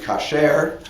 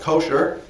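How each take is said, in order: First: The stress is on the last syllable. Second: The stress is on the first syllable. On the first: This is the ancient Hebrew form. "But in biblical Hebrew, the word would be kasher" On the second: "That's how it's usually pronounced, with the accent on the first syllable"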